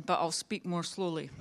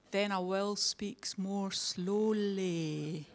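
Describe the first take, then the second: First: Said in the usual way. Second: Very slow, drawn-out words. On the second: Shown as a demonstration. Speaker mocks complaints about her accent, very slowly. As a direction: stretch every word out slowly.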